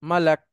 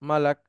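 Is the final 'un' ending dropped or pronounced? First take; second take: dropped; dropped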